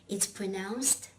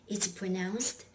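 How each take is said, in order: The two takes are said the same way.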